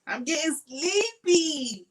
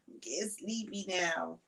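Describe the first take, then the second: First: High, slow, drawn-out singsong; playful sleepy sing-song, high and slow. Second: Softer, drowsy trailing voice; quiet tired murmur; sleepy and soft. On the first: Shown as a demonstration. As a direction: stretch it out like a lullaby tease. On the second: Real, not acted. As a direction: let it fade like you're nodding off.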